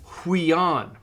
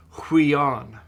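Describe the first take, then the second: First: Huion said once at normal pace with a falling tune; model pronunciation. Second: Huion stretched out slowly, each syllable clear; slow model word. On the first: Teacher reads huion to the class, then models it. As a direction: say huion cleanly and let it fall. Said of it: "it's down on the third line, it's". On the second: Teacher repeats huion slowly so students catch it. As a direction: spell huion out with your voice, slowly. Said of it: "it's got a rough breathing". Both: Shown as a demonstration.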